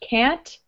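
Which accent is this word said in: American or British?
American. The vowel is a short, flat American a. "Sounds American"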